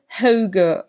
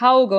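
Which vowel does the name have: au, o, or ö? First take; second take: ö; au. First: The name has an ö vowel sound. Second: The name has an au vowel sound. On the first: The speaker calls it right. "Also eher so ein Ö, Ö Ding laut" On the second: The speaker calls it wrong. "es ist nicht Hauge"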